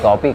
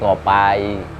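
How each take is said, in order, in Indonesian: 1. Kata ini berakhir dengan bunyi 'ee' biasa. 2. Kata ini berakhir dengan bunyi 'eye'.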